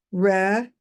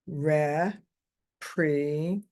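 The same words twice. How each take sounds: First: Said in the usual way. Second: Representative broken into slow separate syllables. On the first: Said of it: "Now say it all together". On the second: Shown as a demonstration. Teacher demonstrating a child sounding out a word, slow syllables. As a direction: sound out Representative slowly, one syllable at a time. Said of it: "You got all the syllables".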